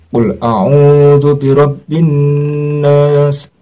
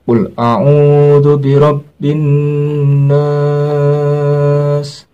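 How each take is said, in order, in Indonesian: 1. Vokal di akhir hanya dibaca sebentar. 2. Vokal di akhir dibaca jauh lebih panjang. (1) "boleh satu alif" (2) "tapi yang afdol dua alif setengah"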